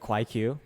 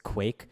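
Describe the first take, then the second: First: The final Q is said as its own syllable. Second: The name is said as one syllable. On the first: The speaker calls it wrong. "I pronounced it wrong in my video. I called it the Kwaiq" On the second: The speaker calls it right. "It's Quake"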